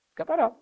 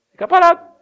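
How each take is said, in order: First: Said in the usual way. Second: Shouted high, ringing answer; emphatic shout. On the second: Real, not acted. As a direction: call it out to the crowd. Pregador responde com ênfase. (resposta gritada com ênfase)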